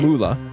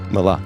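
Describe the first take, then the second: First: The first vowel sounds like 'oo'. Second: The first vowel sounds like 'ah'. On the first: The speaker calls it wrong. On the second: The speaker calls it right.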